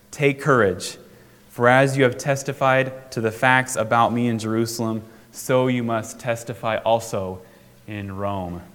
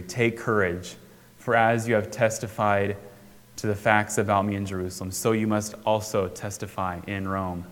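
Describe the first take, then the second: First: Said in the usual way. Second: Softer, lower, gentle reassurance; tender quiet. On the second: Acted. Jesus comforting a worn-down Paul, soft and tender. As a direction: say it like a quiet promise to someone at a low point. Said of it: "at this low moment".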